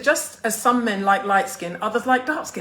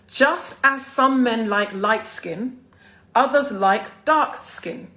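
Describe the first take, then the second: First: The sentence is read at a normal pace. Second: The sentence is read slowly and deliberately.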